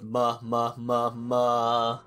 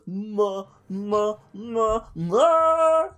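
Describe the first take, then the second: First: It stays flat and lifeless throughout. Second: It rises in scale, lively and expressive.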